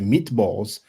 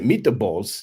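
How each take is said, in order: First: The word is said in a plain accent. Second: The word is said in an Italian accent. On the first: "for them to say meatballs" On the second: "they will say meatballs"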